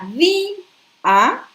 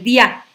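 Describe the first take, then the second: First: The i and a form two separate syllables. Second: The i and a blend into one syllable. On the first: The speaker calls it right. "separación silábica entre di y a" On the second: The speaker calls it wrong. "si yo no rompo el diptongo en día, aquí va a decir"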